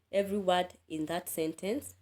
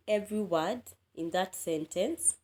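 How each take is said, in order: Both takes have the same delivery.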